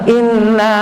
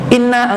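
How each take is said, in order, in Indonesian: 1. Huruf n ganda ditahan dengan dengung sengau. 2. Huruf n ganda dibaca pendek tanpa dengung sengau. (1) "itu ada gunanya" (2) "itu tidak ada guna"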